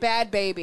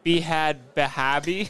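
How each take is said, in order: First: The name is said plainly, without added vowels. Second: Extra vowels are inserted after each B sound.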